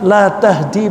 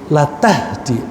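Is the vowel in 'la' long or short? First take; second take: long; short. First: The vowel in 'la' is long. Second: The vowel in 'la' is short. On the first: You do not guide. "ini lanya panjang" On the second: Truly, you guide. "lanya pendek ya"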